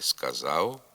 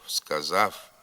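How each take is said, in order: First: The final sound is a short non-syllabic u. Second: The final sound is a voiceless f. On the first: The speaker calls it right. "Треба говорити" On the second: The speaker calls it wrong. "Вимова ... є ненормативною"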